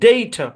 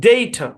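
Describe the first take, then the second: No difference in how they are said.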